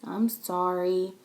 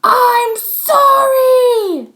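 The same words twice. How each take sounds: First: Nice voice. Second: Very high, very loud, very slow shout; angry yell. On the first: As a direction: say it gently. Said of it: "in a nice voice". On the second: Max yells his apology at Chloe. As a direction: shout it in her face. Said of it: "he yelled in her face". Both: Acted.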